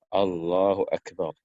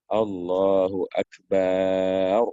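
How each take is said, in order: First: The vowel after b in Akbar is kept short. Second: The vowel after b in Akbar is drawn out. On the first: The speaker calls it right. "ini ba-nya harus pendek" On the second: The speaker calls it wrong. "tidak boleh memanjangkan ba pada lafaz akbar"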